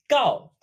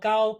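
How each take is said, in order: First: The tone falls. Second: The tone does not fall. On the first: It means to inform or to tell. "but with a falling tone" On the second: It means tall. "Much like tall gao"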